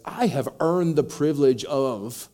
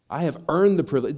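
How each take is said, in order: First: Loud, slow, entitled complaint; indignant elder son. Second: Loud, higher, stressing earned; indignant elder son. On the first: Elder son insisting to his father, loud and entitled. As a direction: press every word like he's owed. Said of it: "which basically he says". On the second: Preacher echoing the son's claim, loud indignant. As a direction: hit earned like a grievance. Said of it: "his mindset is very clear here". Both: Retold or imitated.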